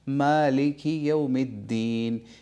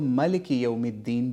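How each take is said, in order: First: The first vowel is long: maa-liki. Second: The first vowel is short: ma-liki. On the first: "मीम के ऊपर खड़ी ज़बर है और हम उसको मा कर करके पढ़ते हैं" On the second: "यानी मीम के ऊपर ज़बर है"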